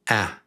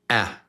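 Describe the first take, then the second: First: The vowel is cut off short and quick. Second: The vowel is cut off short and quick.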